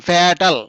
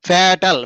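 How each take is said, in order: The two takes are said the same way.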